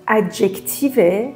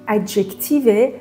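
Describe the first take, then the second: Both takes have the same delivery.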